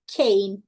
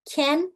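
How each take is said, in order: First: 'cane' with an 'ay' vowel; long A in 'cane'. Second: 'can' with a short open vowel. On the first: Teacher contrasting pairs, long vowel in 'cane'. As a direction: glide the A of 'cane', silent E. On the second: Teacher contrasting pairs, short vowel in 'can'. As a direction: keep the A of 'can' unglided. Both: Shown as a demonstration. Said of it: "Vamos fazer junto".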